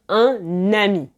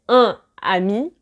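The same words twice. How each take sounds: First: An n sound links the two words. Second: No n sound links the two words. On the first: The speaker calls it right. "Vous entendez le N" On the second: The speaker calls it wrong. "On ne va pas dire"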